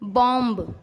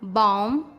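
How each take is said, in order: First: The final b is pronounced. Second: The final b is silent. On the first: The speaker calls it wrong. "वो गलत है" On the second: The speaker calls it right. "M के बाद यदि बी आए तो बी silent हो जाता है"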